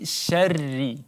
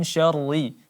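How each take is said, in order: First: The r is pronounced thin and light. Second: The r is pronounced thick and heavy. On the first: The speaker calls it right. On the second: The speaker calls it wrong.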